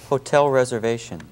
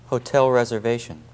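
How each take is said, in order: Both takes have the same delivery.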